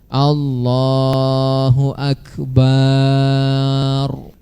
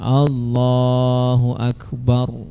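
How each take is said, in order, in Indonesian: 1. Vokal setelah b dibaca panjang. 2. Vokal setelah b dibaca pendek. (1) "Jangan baca Allahu Akbar, tidak boleh" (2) "Harus pendek baknya"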